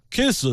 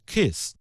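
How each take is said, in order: First: Kiss said in a mock Korean accent, the k aspirated and the word drawn out with a rise; mock Korean English on kiss, long and rising. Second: Said in the usual way. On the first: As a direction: imitate a Korean speaker stretching the word kiss. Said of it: "韩国人一发". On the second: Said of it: "咱们说那个接吻，kiss".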